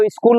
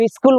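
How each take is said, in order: First: স্কুল said as iskul with an extra i before the sk; pronunciation with added vowel. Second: স্কুল said as skul with no vowel before the sk; standard pronunciation. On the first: Teacher showing students the regional way to say the word: iskul. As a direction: add a short i sound in front: iskul. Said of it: "কেউ স্কুল বলে". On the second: Teacher showing students the standard way to say it: plain skul. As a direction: start straight on the sk: skul. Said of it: "কেউ স্কুল বলে না". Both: Shown as a demonstration.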